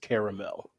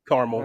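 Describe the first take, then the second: First: It is said with the fancier pronunciation. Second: It is said with the everyday pronunciation.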